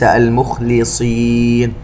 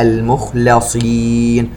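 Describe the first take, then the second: First: المخلصين said with "li", al-mukhliseen, as an error; slow المخلصين with lam vowelled i; kasra on the lam. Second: المخلصين chanted with "la", al-mukhlaseen; slow المخلصين with lam vowelled a; fatha on the lam. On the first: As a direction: put an i after the لام in المخلصين. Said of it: "وليس المخلصين". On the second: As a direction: open the لام to an a in المخلصين. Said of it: "بفتح اللام وليس بكسرها". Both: Shown as a demonstration.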